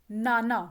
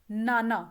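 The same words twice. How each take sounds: No difference in how they are said.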